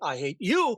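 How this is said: It sounds intense and deeply personal.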